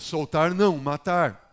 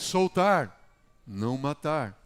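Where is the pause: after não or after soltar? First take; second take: after não; after soltar. First: The pause comes after não. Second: The pause comes after soltar. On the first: The prisoner should be killed. "Mata o indivíduo" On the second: The prisoner should be released. "Só na vírgula"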